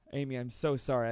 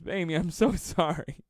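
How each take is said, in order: First: Said in the usual way. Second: Higher and louder, laughing through sorry; laughing apology. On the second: Real, not acted. To commenter Amy after his joke, laughing. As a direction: apologize while cracking up.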